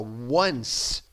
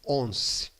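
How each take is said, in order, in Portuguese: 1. A palavra começa com som de w. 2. A palavra começa sem som de w. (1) "você fala w, one" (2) "e não once"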